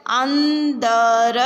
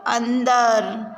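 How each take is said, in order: First: अंदर drawn out very slowly and louder; slow syllable reading. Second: Said in the usual way. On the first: Shown as a demonstration. Teacher sounds out अंदर for the class, slowly and loudly. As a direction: sound out अंदर clearly for children. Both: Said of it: "शब्दों को पढ़ेंगे".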